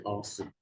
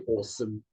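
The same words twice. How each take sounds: First: Awesome with an open unrounded ah, /ɑsəm/; American awesome. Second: Awesome with a rounded British aw, /ɔsəm/; not American awesome. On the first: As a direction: drop the jaw and say awesome as ahsome. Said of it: "they say awesome". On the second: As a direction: say awesome with lips rounded, aw as in law. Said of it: "They don't say awesome, they say awesome". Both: Shown as a demonstration.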